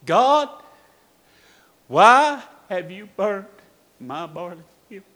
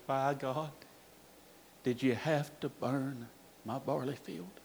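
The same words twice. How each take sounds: First: Loud, raised, drawn-out cry to God; retold scream of grief, held back from full force; anguished cry. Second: Very soft, lower, broken-hearted question; hushed, defeated plea to God; quiet grief. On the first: Preacher kneeling at his son's grave, crying out. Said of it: "he was screaming". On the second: Retold or imitated. Grieving father in his son's empty classroom, hushed.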